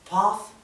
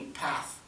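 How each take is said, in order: First: It has a British accent with a closed vowel. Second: It has an American accent with an open vowel. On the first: "Path en inglés británico" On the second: "path en inglés americano"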